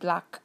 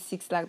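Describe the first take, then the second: First: The name is said as one word, 'Black'. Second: The name starts with the word 'six'. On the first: The speaker calls it right. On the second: The speaker calls it wrong.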